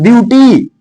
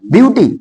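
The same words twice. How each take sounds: First: ब्यूटी with a long, stretched final ee; drawn-out word. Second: Said in the usual way. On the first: Shown as a demonstration. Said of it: "अब कुछ लोग खींच देते हैं". (ब्यूटी को खींचकर बोलना) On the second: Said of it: "ये नहीं होता".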